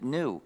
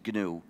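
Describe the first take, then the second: First: The word begins with an n sound. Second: The word begins with a hard g sound. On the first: It follows the dictionary pronunciation. The speaker calls it wrong. "The dictionary will tell you to pronounce it new" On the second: It names the software system. The speaker calls it right. "the correct pronunciation is GNU when it's the name of our system"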